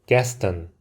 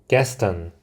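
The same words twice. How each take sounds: The two takes are said the same way.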